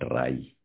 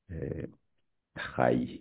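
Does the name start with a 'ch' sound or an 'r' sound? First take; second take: r sound; ch sound. First: The name starts with an 'r' sound. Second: The name starts with a 'ch' sound. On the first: The speaker calls it wrong. "not Rai" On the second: The speaker calls it right. "But it's pronounced as Chai"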